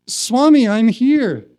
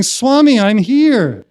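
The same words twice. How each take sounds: First: Retold call, high and louder; insistent plea. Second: Loud, high retold cry for attention; desperate plea. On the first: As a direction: plead to be noticed. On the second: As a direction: plead desperately to be noticed. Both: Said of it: "More desperate".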